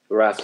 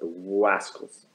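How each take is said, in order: First: It is said in a normal voice. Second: It is said in an Elmer Fudd voice.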